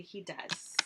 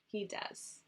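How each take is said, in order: First: Said in the usual way. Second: Whisper. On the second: Real, not acted. Same words repeated, whispered.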